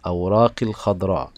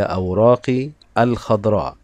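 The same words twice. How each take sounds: First: "أوراقي الخضراء" linked with a silent alif; words joined. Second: "الخضراء" begun afresh as al-khadra after "أوراقي"; words separated. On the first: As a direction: run "أوراقي" straight into the l of "الخضراء". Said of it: "عند الوصل كلمة الخضراء لم تظهر الألف". (نطق «أوراقي الخضراء» موصولة دون ألف) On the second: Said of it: "عند الوصل كلمة الخضراء". (نطق «أوراقي الخضراء» مفصولة بألف ظاهرة) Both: Shown as a demonstration.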